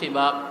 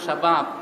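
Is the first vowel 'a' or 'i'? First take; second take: i; a. First: The first vowel is an 'i'. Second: The first vowel is an open 'a'. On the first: This is how Arabs say it colloquially. "আরবের মানুষ এটাকে ব্যঙ্গ উচ্চারণ করে বলে শিবাব" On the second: This is the standard Arabic form. "বহুবচন হলো শাবাব"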